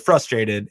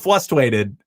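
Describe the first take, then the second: First: The first R sound is pronounced. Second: The first R sound is dropped. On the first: The speaker calls it right. "But say it correctly" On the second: The speaker calls it wrong. "people don't pronounce the first R in frustrated, and Fessy says frustrated"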